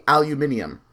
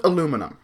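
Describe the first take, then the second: First: "aluminium" as al-yoo-MIN-ee-um; spelling-based pronunciation. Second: "aluminum" as uh-LOO-muh-num; own pronunciation. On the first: Reasoning from the written word, al-yoo-MIN-ee-um. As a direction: stress the MIN in "aluminium", five syllables. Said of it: "I realize it should be". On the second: Giving their own way of saying it, uh-LOO-muh-num. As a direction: stress the second syllable of "aluminum", four syllables. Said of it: "I pronounce it aluminum". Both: Shown as a demonstration.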